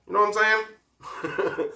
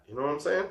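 First: High, slow You know what I'm saying; drawn-out knowing tease. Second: Said in the usual way. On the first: Real, not acted. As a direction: stretch it out with a wink. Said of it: "repeated, drawn out higher". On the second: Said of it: "first quicker take".

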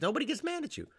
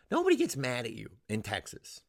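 First: High squeaky insistence; squeaked, incredulous assurance; comic emphasis. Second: Said in the usual way. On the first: Acted. Squeaky first take, then repeated.

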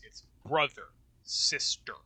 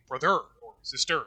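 First: "brother" as BRO-ther, "sister" as SIS-ter, first syllable hit hard; stress on first syllable. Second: "brother" as bro-THER, "sister" as sis-TER, said quick and odd; deliberately wrong bro-THER, sis-TER; wrong stress, second syllable. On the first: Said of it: "The emphasis is on, like, the first syllable there". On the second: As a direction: put the weight on the last syllable of "brother" and "sister". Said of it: "whereas if it was iambic". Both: Shown as a demonstration.

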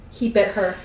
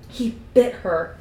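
First: Said in the usual way. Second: Slow, weighted disbelief; appalled. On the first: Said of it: "Carlisle's voice was no longer calmed". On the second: A narrator's reading. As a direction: draw it out, appalled. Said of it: "It was appalled".

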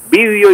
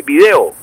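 First: Vídeo as raised VÍ-deo; stress on first syllable. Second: Video as vi-DE-o; stress on second syllable. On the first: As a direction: punch VÍ in vídeo. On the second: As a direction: punch DE in video. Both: Shown as a demonstration. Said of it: "utilizan las dos formas".

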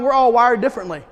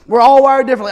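First: Said in the usual way. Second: Punched out loud, stress on ALL; preacher hammering the point home; loud emphatic repeat. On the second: Acted. Repeated, much louder.

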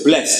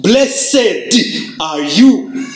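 First: "blessed" said low and light, without weight; a throwaway "blessed"; less emphasized. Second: A proclaiming stress on "Blessed"; emphasized. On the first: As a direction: let "blessed" slip by unstressed. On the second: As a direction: lean hard on "Blessed" to declare it. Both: Shown as a demonstration. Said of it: "it sounds less emphasized".

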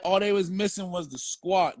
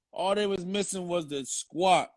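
First: Said in the usual way. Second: "All they was missing was the squat" drawn out slowly for effect; slow it down and land "squat" as the joke; slow punchline repeat. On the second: Shown as a demonstration.

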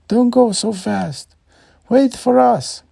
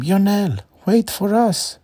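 First: Even higher, louder desperate call; louder yelling. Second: Put-on high, loud calling after the boy; parents yelling. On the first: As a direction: yell harder as he gets away. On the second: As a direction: shout after a child running off. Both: A narrator's reading. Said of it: "yelling after him".

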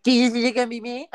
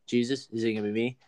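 First: High, loud, quick singsong mockery; mocking mimicry. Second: Said in the usual way. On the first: Jesus mimicking Judas's question back at him, mocking. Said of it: "Imagine if he mocks him". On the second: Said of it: "Judas is like".

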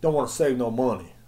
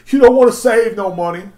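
First: Said in the usual way. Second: "You don't wanna save no money" said high and loud; loud, high mocking repeat; louder repeat. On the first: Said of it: "repeats louder". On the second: Shown as a demonstration. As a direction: punch it up the second time, loud. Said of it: "repeated louder".

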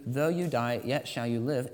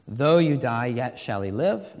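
First: Said in the usual way. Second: Emphatic scripture quote. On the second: Acted. Quoting Jesus emphatically.

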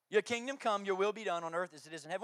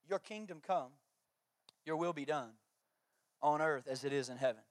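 First: Said in the usual way. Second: Soft, quiet reverent reading; reverent recitation. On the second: Acted. Pastor reciting the Lord's Prayer to the congregation, quietly reverent.

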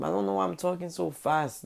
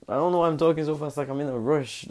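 First: Said in the usual way. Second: Fast, high and louder rattle; rushed. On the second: Real, not acted. A vlogger catching himself rushing, said fast. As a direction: gabble it out in a rush.

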